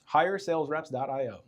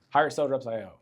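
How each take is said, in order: First: It is said slowly. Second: It is said quickly.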